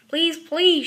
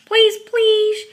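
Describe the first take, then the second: First: Loud begging cubs; loud, insistent plea; pleading shout. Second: Very loud, high begging; shrieked child's begging; louder pleading shout. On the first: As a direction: call it out, begging. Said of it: "shouted the cubs". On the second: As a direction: yell the plea for everyone to hear. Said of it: "so loudly that the whole". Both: A narrator's reading.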